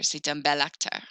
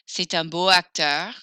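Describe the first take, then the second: First: An L sound links into acteur. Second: The adjective ends in a vowel before acteur. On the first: The speaker calls it right. "If you guessed belle, but without the extra L E, you're right" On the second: The speaker calls it wrong. "Beau acteur won't work"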